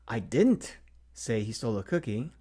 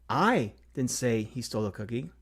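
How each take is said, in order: First: The stress falls on the word didn't. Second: The stress falls on the word I.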